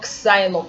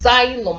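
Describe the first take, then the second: First: The word begins with a ks sound. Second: The word begins with a z sound. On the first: The speaker calls it wrong. "That word is not xylem" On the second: The speaker calls it right. "It's xylem. That is z"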